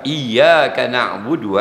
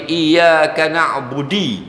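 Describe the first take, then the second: First: The last word ends with an 'oo' vowel. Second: The last word ends with an 'ee' vowel. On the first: The speaker calls it right. "Fatihah, budu" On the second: The speaker calls it wrong. "dia pergi baca iyyaka na'budi"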